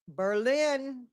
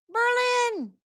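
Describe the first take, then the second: First: Said in the usual way. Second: High-pitched, playful whoop of the word; sudden high squeal of a greeting; playful high call-out. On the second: Pretend. Calls the town out again playfully.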